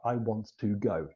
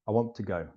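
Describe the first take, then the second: First: Each word is said separately with a clear T. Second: The words run together and the T nearly vanishes. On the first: The speaker calls it wrong. "we can't say like that" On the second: The speaker calls it right. "I'm going to say this normally"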